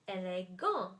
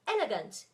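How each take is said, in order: First: The stress is on the last syllable. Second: The stress is on the first syllable. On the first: "stressed at the end of the word" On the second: "stressed at the beginning of the word"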